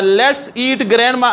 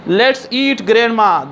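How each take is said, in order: First: It is said without a pause. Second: There is a pause before 'grandma'.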